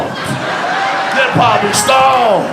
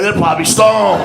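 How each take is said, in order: First: Slow, higher, laughing stretch on "stoned"; laughing repeat. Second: Said in the usual way. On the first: Shown as a demonstration. Comic repeating his punchline to the crowd, slow and laughing. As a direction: draw out "stoned" with a laugh, slowly.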